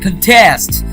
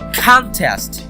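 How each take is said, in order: First: The stress is on the second syllable. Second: The stress is on the first syllable. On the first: It is a verb meaning to oppose or compete. "we are giving the stress on test" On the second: It is a noun meaning a competition. "I'm actually giving the stress on con"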